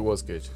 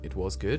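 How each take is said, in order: First: The voice falls at the end like a statement. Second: The voice rises at the end like a question. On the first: It states that the film was good. The speaker calls it wrong. "That sounded like a statement" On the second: It asks whether the film was good. The speaker calls it right. "It was a question"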